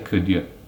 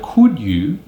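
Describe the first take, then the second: First: Both words are said with weak, reduced vowels. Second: Both words are said with full vowels. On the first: "we say could you" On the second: "Instead of could you"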